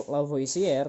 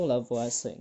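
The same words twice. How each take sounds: First: "Lavoisier" said as la-vo-i-si-er; every written vowel sounded in "Lavoisier", la-vo-i-si-er; read as spelled. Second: "Lavoisier" said as la-vwa-se; three-syllable "Lavoisier", la-vwa-se; usual spoken pronunciation. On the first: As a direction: pronounce "Lavoisier" just as written, la-vo-i-si-er. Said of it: "Meskipun tulisannya". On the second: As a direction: say "Lavoisier" the way people read it, la-VWA-se. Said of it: "biasanya orang bacanya itu". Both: Shown as a demonstration.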